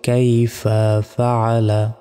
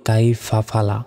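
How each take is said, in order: First: The second word has three syllables, 'fa-a-la'. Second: The second word has two syllables, 'fa-la'. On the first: The speaker calls it right. "বলতে হবে কাইফা ফাআলা, এইভাবে" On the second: The speaker calls it wrong. "আমরা অনেকে বলি কাইফা ফালা"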